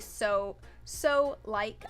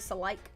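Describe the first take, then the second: First: The two words are said separately. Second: The two words are squished together. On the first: "I don't say so so like" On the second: "I say so like. ... squishing words together"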